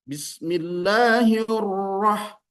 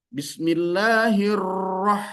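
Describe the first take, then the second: Both takes have the same delivery.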